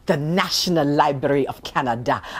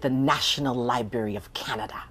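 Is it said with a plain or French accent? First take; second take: French; plain. First: It is said with a slight French accent. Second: It is said in her plain accent.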